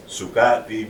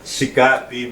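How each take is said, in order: First: "Sukapi" with a clear "su" opening; inflection for good. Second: "Sikapi" with a clear "si" opening; inflection for dirty. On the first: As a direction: say "Sukapi" with oo in the first syllable. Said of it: "means good". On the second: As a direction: say "Sikapi" with ee in the first syllable. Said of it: "means dirty". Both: Shown as a demonstration.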